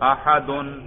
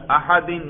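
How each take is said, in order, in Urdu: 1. لفظ کی آواز -un پر ختم ہوتی ہے۔ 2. لفظ کی آواز -in پر ختم ہوتی ہے۔ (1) "دیکھو میں رفع سننے سے آپ کو پتا چل گیا" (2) "میں کون سا اعراب پڑھ رہا ہوں؟ جر"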